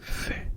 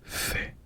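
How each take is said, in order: Both takes have the same delivery.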